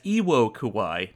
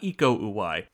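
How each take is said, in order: First: The name is said as Iwo Kuwai. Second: The name is said as Iko Uwai. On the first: The speaker calls it wrong. "you're going to hear me mispronounce his name a few times in this episode as Iwo Kuwai" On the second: The speaker calls it right. "not Iko Uwai"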